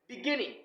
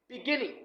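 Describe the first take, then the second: First: The stress is on the second syllable. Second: The stress is on the second syllable.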